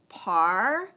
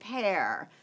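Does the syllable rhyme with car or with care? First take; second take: car; care. First: The vowel sounds like the one in car. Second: The vowel sounds like the one in care. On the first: The speaker calls it wrong. "You might have said par" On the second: The speaker calls it right. "try it with a long sound. So you'd say pair"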